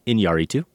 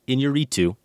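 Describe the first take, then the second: First: "Iñárritu" as een-YAH-ree-too; accent on the A. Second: "Iñárritu" without the stressed A, as een-yuh-REE-too; wrong stress placement. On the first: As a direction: stress the A in "Iñárritu", full open AH. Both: Shown as a demonstration. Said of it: "The accent is on the A".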